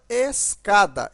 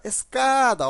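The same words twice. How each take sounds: First: Said in the usual way. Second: "Escada" with "ca" stretched long; stressed middle syllable. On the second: Shown as a demonstration. Teacher showing the stronger syllable, "Escada" with held "ca". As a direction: draw out and lean on "ca" in "Escada". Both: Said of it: "aqui é pronunciado mais forte".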